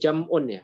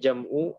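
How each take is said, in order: First: The word ends with an added n sound. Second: The word ends on a vowel without n. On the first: The speaker calls it wrong. "Tadi bacanya jam'un ya. Karena dia mudhaf enggak boleh ditanwin" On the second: The speaker calls it right. "maka dibacanya jam'u alamatin"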